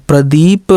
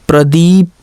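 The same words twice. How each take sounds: No difference in how they are said.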